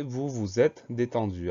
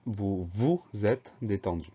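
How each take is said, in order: First: Said in the usual way. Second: Slow example with the second "vous" set apart; deliberate, spaced words highlighting the second "vous"; stress on second "vous". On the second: Shown as a demonstration. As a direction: pick out the second "vous" in "vous vous êtes détendu". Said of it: "le pronom, il va se transformer".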